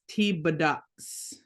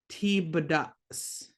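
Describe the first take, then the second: Both takes have the same delivery.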